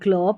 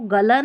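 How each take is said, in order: First: The two consonants are joined with no vowel. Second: A short vowel separates the two consonants. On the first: The speaker calls it right. "ग्ल पढ़ना है" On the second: The speaker calls it wrong. "G L को गल नहीं"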